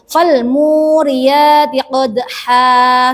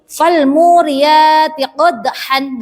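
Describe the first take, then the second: First: The last word ends with a long a. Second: The last word ends with an n sound. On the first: The speaker calls it right. "harus dibaca seperti mat asli" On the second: The speaker calls it wrong. "tidak boleh dibaca uh, apa itu seperti ini"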